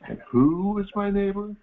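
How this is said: It is said with a pointed, loaded inflection.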